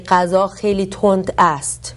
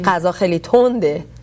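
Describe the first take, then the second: First: The verb is said in full, formal form. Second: The verb is reduced to a casual spoken ending. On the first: It is literary, refined speech. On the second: It is everyday spoken speech.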